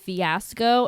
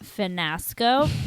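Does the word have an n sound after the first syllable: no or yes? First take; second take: no; yes. First: The word is said without an n sound. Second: The word is said with an added n sound. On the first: The speaker calls it right. "the word is fiasco" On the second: The speaker calls it wrong. "not finasco"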